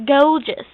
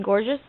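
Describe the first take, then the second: First: "Gorgeous" insisted on as "goh-jus"; put-on British "Gorgeous", first syllable like "go"; accented pronunciation. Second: Said in the usual way. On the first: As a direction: say "Gorgeous" firmly with a long o and no r. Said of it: "You mean gorgeous?". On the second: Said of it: "that's what I said".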